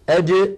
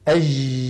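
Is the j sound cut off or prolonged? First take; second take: cut off; prolonged. First: The j is a hard stop, classical Arabic. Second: The j is soft and drawn out, colloquial.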